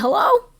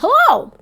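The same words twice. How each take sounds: First: The voice rises at the end, like a question. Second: The voice falls at the end, like an exclamation.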